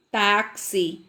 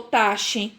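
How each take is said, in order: First: "táxi" said TAK-si; "táxi" with k plus s for the x. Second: "taxe" said TA-she; "taxe" with sh in place of ks; wrong X sound. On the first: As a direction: correct it to "táxi" with a clear ks. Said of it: "como que eu falasse o C S". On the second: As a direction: misread táxi as "taxe" with sh. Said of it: "Não ficou taxe". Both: Shown as a demonstration.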